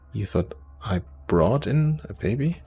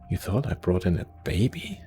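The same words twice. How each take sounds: First: The stress is on "brought in". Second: The stress is on "baby".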